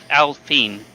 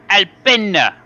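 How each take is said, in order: First: It is said with a French pronunciation. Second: It is said with an Italian pronunciation. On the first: The speaker calls it right. "it's a French team, it's pronounced Alpine" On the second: The speaker calls it wrong. "because it's an Italian team. It's Alpina"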